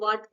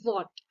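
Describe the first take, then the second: First: The vowel is open and flat, like 'ah'. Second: The vowel is rounded, like 'aw'. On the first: The speaker calls it wrong. "कुछ लोग वाट पढ़ लेंगे" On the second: The speaker calls it right. "W H A T वॉट"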